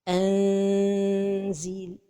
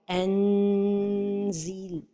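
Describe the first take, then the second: First: The n is hidden into a nasal hum. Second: The n is fully pronounced with the tongue tip. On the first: The speaker calls it right. "la prononciation correcte" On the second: The speaker calls it wrong. "toucher le palais supérieur avec le bout de la langue"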